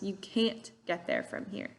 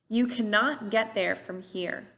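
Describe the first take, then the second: First: The word cannot is contracted to can't. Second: The word cannot is said in full. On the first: "these contractions"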